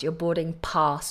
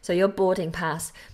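First: The word pass has a southern English vowel. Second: The word pass has a northern English vowel. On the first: The speaker calls it right. "not pass" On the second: The speaker calls it wrong. "that's my northern accent coming out"

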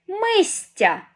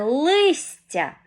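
First: The word begins with an M sound. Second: The word begins with an L sound. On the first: The speaker calls it wrong. "неправильно я промовила це слово" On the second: The speaker calls it right. "Правильне слово – це листя"

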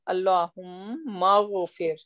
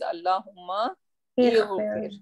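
First: The words run together without the 'i' sound. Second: An 'i' sound is heard before 'ghfir'. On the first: "We say Allahumma ghafir" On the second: "but actually it is Allahumma ighfir"

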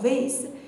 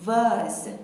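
First: It is said with an American accent. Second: It is said with a British accent.

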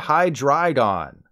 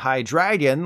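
First: The name has a drei sound before gon. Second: The name ends like the English word dragon. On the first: The speaker calls it right. "the correct pronunciations" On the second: The speaker calls it wrong. "like you're greeting a dragon"

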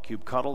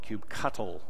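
First: The word has little or no t sound. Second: The word has a clear t sound. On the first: "That's usually what I refer to it as" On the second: "with more of a t sound"

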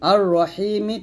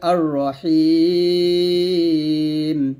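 First: The word ends with a short vowel. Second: The word ends on a bare, drawn-out consonant. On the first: The reader continues without stopping. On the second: The reader stops on this word.

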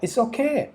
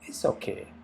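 First: It is said in an emphatic, enthusiastic way. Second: It is said in a lukewarm, half-hearted way. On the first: It is genuinely fine, so what is the problem? "เฮ้ยใช้ได้เลยทำไมล่ะ" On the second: It is merely acceptable, nothing special. "ก็งั้นแหละใช้ได้อยู่หรอก"

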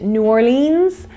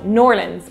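First: The name is said in full, as separate parts. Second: The name is merged into two quick syllables. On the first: The speaker calls it wrong. "I pronounced it New Orleans with my Irish accent" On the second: The speaker calls it right. "corrected in the comments"

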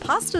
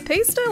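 First: The first vowel sounds like 'ah' in father. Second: The first vowel sounds like 'ay' in paste. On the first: It refers to the food. "pasta is just delicious" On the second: It refers to copying and pasting text. "you're copying and pasting it"

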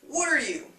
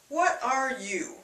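First: The phrase is said faster with words running together. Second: The phrase is said slowly with every word full. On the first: "Then faster" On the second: "begins with what are you?"

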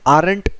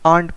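First: It is said with an r, like 'ar-ent'. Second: It is said without an r, like 'aunt'. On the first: The speaker calls it wrong. "इसे आरंट नहीं pronounce करना है" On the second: The speaker calls it right. "इसे आंट pronounce करना है"

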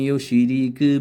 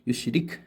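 First: The final consonant is pressed hard and stretched. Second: The final consonant is said lightly and briefly. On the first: The speaker calls it wrong. "പഴയ ഒത്തുകാരുണ്ടാവും ഒമൈ യു ഷിരീക്ക് ബില്ലാഹി അങ്ങനെ അങ്ങനെ പോകുന്നവരുണ്ട്" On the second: The speaker calls it right. "യു ഷിരിഖ് അത്രയേ ഉള്ളൂ"

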